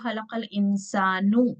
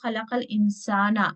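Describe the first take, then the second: First: The last word ends in an 'u' vowel. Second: The last word ends in an 'a' vowel. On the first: The human is the one who created. "पेश के साथ" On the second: The human is the one who was created. "अब पेश नहीं है, जबर है"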